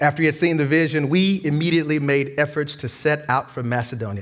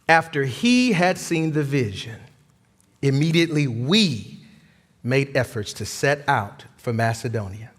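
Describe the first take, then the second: First: It is read fast. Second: It is read slowly.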